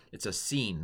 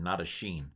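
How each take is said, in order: First: "seen" with a clean s sound, not sh. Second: "sheen" with a sh sound, shown as the wrong reading. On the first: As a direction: pronounce "seen" as sss-een, plain hissed s. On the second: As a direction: contrast it: "sheen" with a soft sh. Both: Shown as a demonstration.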